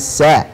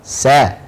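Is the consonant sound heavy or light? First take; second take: light; light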